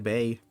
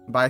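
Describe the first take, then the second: First: The vowel sounds like the one in 'bay'. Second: The vowel sounds like the one in 'bye'. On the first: The speaker calls it right. "Not bye, bay" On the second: The speaker calls it wrong. "You don't pronounce that word bye"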